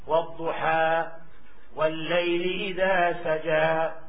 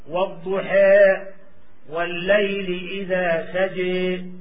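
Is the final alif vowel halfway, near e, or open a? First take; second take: open a; near e. First: The final vowel is a fully open a. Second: The final vowel is strongly inclined toward e. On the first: "أما الفتح" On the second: "أردنا الإمالة الكبرى"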